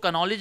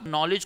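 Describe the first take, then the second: First: The word begins with a sounded k before n. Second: The word begins with an n sound, no k. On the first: The speaker calls it wrong. "कनॉलेज नहीं पढ़ते" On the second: The speaker calls it right. "जैसे आप नॉलेज को कनॉलेज नहीं पढ़ते"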